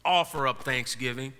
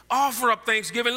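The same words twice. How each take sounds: First: Said in the usual way. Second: "Offer" punched higher and louder, rising end; emphatic repeat. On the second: Shown as a demonstration. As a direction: repeat it to drive it home, higher.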